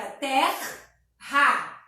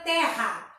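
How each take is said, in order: First: Terra broken into ter and ra; syllable by syllable. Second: Said in the usual way. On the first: Shown as a demonstration. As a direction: say terra in two slow beats, R sounded on both sides. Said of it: "um R pra cada lado". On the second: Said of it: "a gente vai separar".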